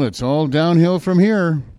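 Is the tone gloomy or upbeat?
gloomy. It is said in a gloomy, resigned tone.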